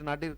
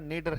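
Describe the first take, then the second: First: The first vowel sounds like 'ah'. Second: The first vowel sounds like 'ay'. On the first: The speaker calls it wrong. "नाडिर नाडिर करना ठीक नहीं है" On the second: The speaker calls it right. "उच्चारण इसका नेडर है"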